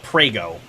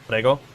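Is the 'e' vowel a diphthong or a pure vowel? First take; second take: diphthong; pure vowel. First: The e glides into an i sound. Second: The e is a pure, steady vowel. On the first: It names a pasta sauce brand. The speaker calls it wrong. "it's an e and then an I" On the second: It means you're welcome. The speaker calls it right. "the Italian for like you're welcome"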